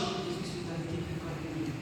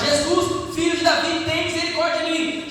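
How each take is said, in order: First: It is said quietly, almost under the breath. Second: It is shouted loudly.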